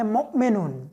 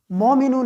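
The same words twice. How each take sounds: First: मुमिनून with a short u in the first syllable; correct vowel. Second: मोमिनून with a long o in the first syllable; wrong vowel. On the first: Teacher giving students the correct reading, short u. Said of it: "हमने उसको पढ़ना है मुमिनून". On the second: Teacher warning students of the mistake, long o. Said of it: "मोमिनून नहीं पढ़ना". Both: Shown as a demonstration.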